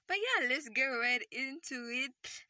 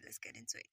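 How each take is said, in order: First: Hyped-up announcement. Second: Low, unvoiced whisper; hushed low take on the same line. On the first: Acted. Hyping the start. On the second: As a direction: breathe the line out low and secret. Repeating the start line.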